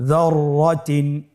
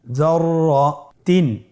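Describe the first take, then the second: First: Said in the usual way. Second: যররাতিন said slowly, doubled র held; slow careful reading. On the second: Shown as a demonstration. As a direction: draw out যররাতিন. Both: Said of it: "আমার সাথে বলুন".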